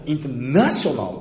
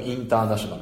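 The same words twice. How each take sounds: First: "インターナショナル" with a hard stress on "ナ"; strong stress. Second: "インターナショナル" even, no syllable stressed; flat reading. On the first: Teacher showing the stressed version that gets understood. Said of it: "インターナショナルでも通じます". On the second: Teacher showing the flat Japanese way of saying it. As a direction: read "インターナショナル" flat, every mora the same. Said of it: "平べったくインターナショナルって言うんでしょ". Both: Shown as a demonstration.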